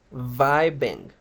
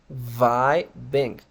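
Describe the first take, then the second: First: "vibing" said carefully as VAI-beng; pronunciation demo. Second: "vibing" split slowly, VAI ... beng; syllable-by-syllable demo. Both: Shown as a demonstration. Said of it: "la forma correcta de pronunciar".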